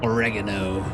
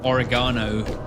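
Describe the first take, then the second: First: It is said in an American pronunciation. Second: It is said in a non-American pronunciation.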